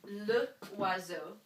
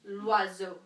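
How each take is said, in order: First: The article and noun are said as separate words. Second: The article and noun are run together as one word. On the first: The speaker calls it wrong. "I wouldn't say le oiseau" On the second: The speaker calls it right. "I would say l'oiseau"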